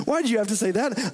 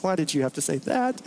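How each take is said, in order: First: Mock exasperation. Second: Said in the usual way. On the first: Shown as a demonstration.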